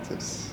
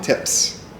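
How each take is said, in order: First: The consonants are pronounced softly and weakly. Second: The consonants are pronounced hard and crisply. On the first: The speaker calls it wrong. "Like it's very soft" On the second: The speaker calls it right. "I would say"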